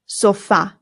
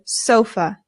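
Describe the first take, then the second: First: The stress is on the last syllable. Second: The stress is on the first syllable. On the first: This is the Spanish pronunciation. "in Spanish, the stress goes on the A" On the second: This is the English pronunciation. "In English, we put the stress on the O"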